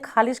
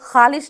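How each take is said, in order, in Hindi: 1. पहला व्यंजन एक महाप्राण k स्पर्श है। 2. पहला व्यंजन गले का रगड़ने वाला संघर्षी है। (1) "बेनुक्तादार" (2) "ना कह करके"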